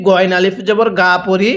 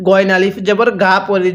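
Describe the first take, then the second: No difference in how they are said.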